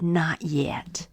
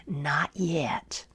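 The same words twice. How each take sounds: First: Soft low whispered not yet; gentle whisper. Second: Soft low whispered not yet; quiet whisper. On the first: Potter gently answering the teacup, whispered. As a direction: whisper it kindly, unhurried. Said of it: "gently said". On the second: Potter quietly refusing the dizzy teacup, whispered. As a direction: breathe it out calmly. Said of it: "said quietly". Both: Acted.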